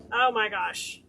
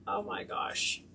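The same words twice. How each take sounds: First: Said in the usual way. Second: Breathy whispered oh my gosh; whispered awe. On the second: Real, not acted. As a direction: gasp it under your breath. Reacting to the curled ribbon.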